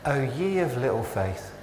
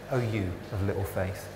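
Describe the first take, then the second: First: Put-on "ye" said as old English yee; O ye of little faith with old "ye"; old wording. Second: Softer, lower "you" in place of "ye"; modern wording. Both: Shown as a demonstration. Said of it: "That's the old language".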